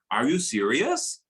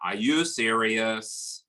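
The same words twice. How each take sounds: First: The pitch rises at the end. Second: The pitch stays flat throughout. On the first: The speaker is shocked by something. "Surprise, ... rising tone. Nadanya naik di akhir ya" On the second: The speaker is bored. "buat teman-teman yang menjawab boredom, flat, itu benar ya"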